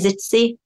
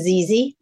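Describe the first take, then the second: First: The middle consonant is a ts sound. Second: The middle consonant is a plain z sound. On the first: This is how some other people say it. "Some say Zitzy" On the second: This is how the household says it. "We went to ZZ"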